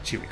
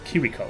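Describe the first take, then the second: First: The name begins with a ch sound. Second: The name begins with a k sound. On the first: The speaker calls it wrong. "It's not Chiriko" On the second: The speaker calls it right. "It's Kiriko, I think is the pronunciation"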